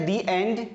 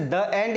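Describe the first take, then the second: First: "the end" with long ee in "the"; THE as "dee". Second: "the end" with schwa in "the"; THE as "duh". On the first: Teacher offering the second choice, "the end" as dee and. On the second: Teacher offering a choice to learners, "the end" as duh and. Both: Shown as a demonstration. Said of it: "तो क्या बोलेंगे इसे?".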